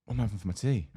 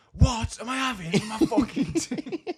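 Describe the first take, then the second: First: Said in the usual way. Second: High, loud, slow mock-furious yell; blowing up. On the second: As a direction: explode in an imitated outburst, drawing it out. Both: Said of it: "that blew up again".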